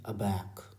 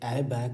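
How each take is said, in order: First: The word begins with a weak 'uh' sound. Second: The word begins with a full 'ay' sound. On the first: The speaker calls it right. "ये है अबैक" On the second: The speaker calls it wrong. "ये ए बैक नहीं है"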